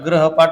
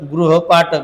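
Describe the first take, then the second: First: The first syllable sounds like 'grah'. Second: The first syllable sounds like 'gru'. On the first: The speaker calls it wrong. "ग्रहपाठ म्हणतात" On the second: The speaker calls it right. "गृहपाठ येते"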